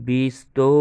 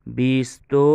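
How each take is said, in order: The two takes are said the same way.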